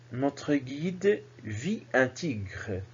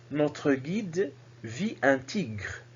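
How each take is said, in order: The two takes are said the same way.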